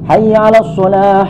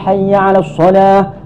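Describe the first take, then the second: The two takes are said the same way.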